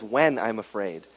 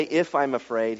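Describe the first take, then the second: First: WHEN leaned on, soft and low; "When" stressed, quiet and falling. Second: IF leaned on, soft and low; "If" stressed, quiet and falling. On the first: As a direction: land on the word When as the true reading. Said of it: "He just says". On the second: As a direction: weigh the word If as the wrong reading. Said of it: "he doesn't say". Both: Shown as a demonstration.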